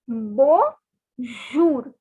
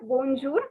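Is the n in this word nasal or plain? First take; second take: nasal; plain. First: The n is pronounced with a nasal sound. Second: The n is pronounced as a plain consonant. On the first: The speaker calls it right. "it is pronounced as bonjour. This N has a nasal sound" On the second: The speaker calls it wrong. "it is not bonjour"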